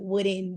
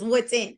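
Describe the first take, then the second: First: The name is pronounced like the word wooden. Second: The name is pronounced with a t sound, Woodton. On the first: The speaker calls it wrong. "I always want to say Wooden" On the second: The speaker calls it right. "but it's Woodton"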